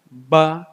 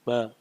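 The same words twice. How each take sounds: First: The mouth opens wide for the vowel. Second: The mouth barely opens for the vowel. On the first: The speaker calls it right. "Cara baca A" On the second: The speaker calls it wrong. "mulutnya nggak kebuka"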